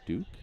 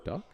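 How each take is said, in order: First: The vowel is a long 'oo' sound. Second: The vowel is a short 'uh' sound. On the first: The speaker calls it right. "it's pronounced Duke" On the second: The speaker calls it wrong. "not Duck"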